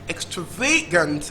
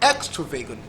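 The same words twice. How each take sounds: First: The stress is on the third syllable. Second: The stress is on the first syllable. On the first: "Third syllable" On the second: "First syllable"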